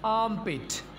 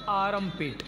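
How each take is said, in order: First: The r is followed directly by m. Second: A vowel is inserted after the r. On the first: The speaker calls it right. "यहाँ पर हम आर को साकिन रखेंगे तो ऐसे बोलेंगे" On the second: The speaker calls it wrong. "ना कि आर्मपिट। ये वाली प्रोनाउंसिएशन बिल्कुल गलत है।"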